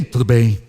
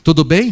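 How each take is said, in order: First: Low, terse imitation of a sullen son; sulky child. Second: Said in the usual way. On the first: Son in the car answering his father, low and sulky. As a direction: answer dad grudgingly, pitched right down. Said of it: "entra emburrado". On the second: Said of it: "eu pergunto".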